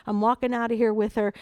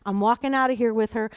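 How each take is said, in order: Both takes have the same delivery.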